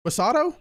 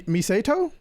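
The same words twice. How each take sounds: First: Misato said muh-SAH-toh, lifted into a question; tentative pronunciation. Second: Misato said mee-SAY-toh, rising like a question; unsure pronunciation. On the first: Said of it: "I'm gonna say Misato". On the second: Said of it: "I don't know. I'm gonna say". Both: Shown as a demonstration.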